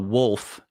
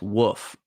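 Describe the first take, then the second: First: The L sound is pronounced clearly. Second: The L sound is dropped entirely. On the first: The speaker calls it right. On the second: The speaker calls it wrong.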